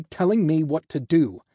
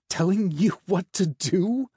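First: Higher, louder indignant finish; angry protest, emphatic. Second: High, incredulous echo rising to a question; scoffing, amused question; mocking laugh. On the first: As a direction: push back hard, falling at the end. Angry half of the echoed line. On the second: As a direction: throw it back in mocking disbelief. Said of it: "the angel laughed". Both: A narrator's reading.

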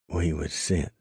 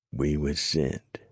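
First: A hint of a cold, haunting dying gasp. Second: Slow, puzzled repeat of the words. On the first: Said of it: "the dying man's voice took on a cold, haunting note". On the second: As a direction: say it slowly, turning it over. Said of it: "he repeated". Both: A narrator's reading.

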